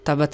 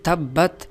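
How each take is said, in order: First: The 'b' is short and loose, not doubled. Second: The 'b' is doubled and held firmly. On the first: The speaker calls it wrong. "बाज़ लोग इसको ढीला पढ़ते हैं" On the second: The speaker calls it right. "बल्कि"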